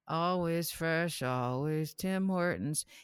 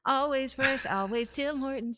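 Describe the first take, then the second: First: It is said in a plain, neutral voice. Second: It is said with a smile in the voice.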